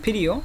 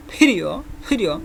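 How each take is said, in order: First: Said in the usual way. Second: ফিরিও with a strong puff on the first consonant; thick, aspirated "ph" opening ফিরিও; extra breath. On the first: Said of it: "এই উচ্চারণটা normal হবে". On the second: Shown as a demonstration. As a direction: let more air burst out at the start of ফিরিও. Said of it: "মুখ থেকে যেন বাতাসটা বেশি".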